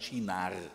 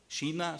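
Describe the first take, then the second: First: The word ends with an r sound. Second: The word ends without an r sound. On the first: The speaker calls it right. "sondern Chinar. Meine Frau könnte das jetzt viel besser mit dem fränkischen R" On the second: The speaker calls it wrong. "nicht China"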